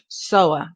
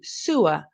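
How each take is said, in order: First: The first syllable rhymes with 'so'. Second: The first syllable rhymes with 'sue'. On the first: A person or machine that sews. "It's a so, O, O sound" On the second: An underground drain for waste water. "su, sewer"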